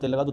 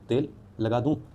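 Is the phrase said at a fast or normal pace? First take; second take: fast; normal. First: The phrase is said quickly, running together. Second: The phrase is said at a normal pace.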